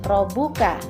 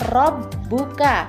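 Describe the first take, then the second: First: The b sound is single and short. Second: The b sound is doubled and held longer. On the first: The speaker calls it wrong. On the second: The speaker calls it right. "huruf ba-nya dibaca double"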